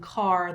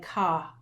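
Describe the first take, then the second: First: The word ends with its final sound. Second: The word's final sound is dropped. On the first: The speaker calls it right. "instead of saying car" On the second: The speaker calls it wrong. "some kids drop off the ending"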